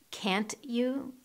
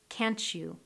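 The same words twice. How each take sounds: First: The t and you are said separately. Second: The t and you merge into ch.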